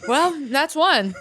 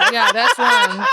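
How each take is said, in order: First: Slow, laughing line; amused, laughing aside. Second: Much higher, louder laughing repeat; squealing with laughter. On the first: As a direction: chuckle through it slowly. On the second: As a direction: crack up as you repeat it. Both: Real, not acted. Laughing at intrusive thought.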